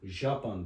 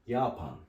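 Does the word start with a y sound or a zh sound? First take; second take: zh sound; y sound. First: The word begins with a zh sound. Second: The word begins with a y sound. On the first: The speaker calls it wrong. "Şimdi bu J harfi biz okusak nasıl okuruz? Japan deriz ama öyle değil" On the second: The speaker calls it right. "Y gibi okunuyor"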